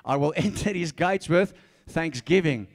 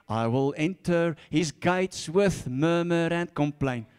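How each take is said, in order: First: Said in the usual way. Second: Slow, sulky moaning of the verse; mock grumbling prayer. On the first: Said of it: "No, it says". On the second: Shown as a demonstration. Preacher mocking a grumbling prayer, slow and sulky. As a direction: grumble the words like a complainer. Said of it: "Don't pray like that".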